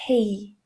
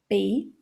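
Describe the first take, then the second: First: The p is released with a puff of air. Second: The p is released without a puff of air. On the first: The speaker calls it right. "ele tem um arzinho a mais" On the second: The speaker calls it wrong. "você não vai falar só pay"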